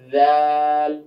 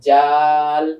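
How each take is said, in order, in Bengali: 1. এটি দাঁতের মাঝে একটি নরম ধ্বনি দিয়ে শুরু হয়। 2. এটি একটি কঠিন 'j' ধ্বনি দিয়ে শুরু হয়। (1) "জিহ্বার আগাটা এসে দাঁতের আগার সঙ্গে লাগবে" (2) "যদি আমি বাংলায় বলি তাহলে কি বলবো?"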